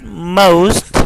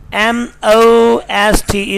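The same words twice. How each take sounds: First: "most" as "moh-oost"; correct vowel. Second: "most" with a pure "aw"-like O; wrong vowel. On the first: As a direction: glide the O in "most" towards "oo". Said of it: "but most". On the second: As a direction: say "most" without a glide. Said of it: "is not most". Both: Shown as a demonstration.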